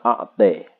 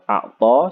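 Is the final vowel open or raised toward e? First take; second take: raised; open. First: The final vowel is raised slightly toward e. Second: The final vowel is a fully open a. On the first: "wa taqlil" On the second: "Wabil fathi"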